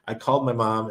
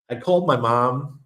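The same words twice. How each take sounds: First: Said in the usual way. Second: Slight New York accent slipping out; a touch of New York in the vowels. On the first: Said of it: "Sorry, a little bit New York accent". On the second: Real, not acted. Telling viewers about phoning mom, light New York accent. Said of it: "a little bit New York accent there".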